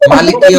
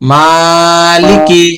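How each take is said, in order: First: The first vowel is said short, not drawn out. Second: The first vowel is drawn out long. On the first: The speaker calls it wrong. "কেউ যদি পড়ে মালিকি অমিদিন তাহলে তার পড়া কি হবে?" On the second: The speaker calls it right. "অবশ্যই একালিফ টানতে হবে।"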